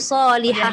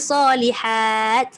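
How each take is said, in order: First: The word ends with an h sound. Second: The word ends with a t sound. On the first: "Bila ta tu tertutup dia jadi salihah" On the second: "Bila ta tu terbuka jadi salihat"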